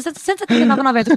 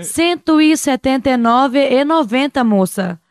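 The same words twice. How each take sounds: First: Fast, run-together numbers; rushed price. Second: Slow, each number set apart; slow, spaced price. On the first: Retold or imitated. Young saleswoman rushing a price to a customer, fast. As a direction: rattle the price off in one breath. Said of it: "Porque eu falava muito rápido". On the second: Shown as a demonstration. Saleswoman giving the price calmly to a customer, slow. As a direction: pause between the numbers, unhurried. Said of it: "tinha que ter parado um pouquinho".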